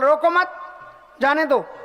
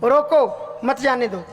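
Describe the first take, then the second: First: The pause comes right after 'mat'. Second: The pause comes right after 'roko'. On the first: Do not stop him; let him go. "उसको जाने दो।" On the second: Stop him; do not let him go. "इसको रोकना है, जाने नहीं देना।"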